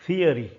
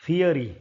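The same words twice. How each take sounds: No difference in how they are said.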